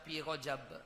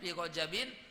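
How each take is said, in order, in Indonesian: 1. Kata itu berakhir pada b tanpa vokal. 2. Kata itu berakhir dengan bunyi in. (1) "Nak baca Rajab boleh disukunkan" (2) "maka dibacanya fi Rajabin"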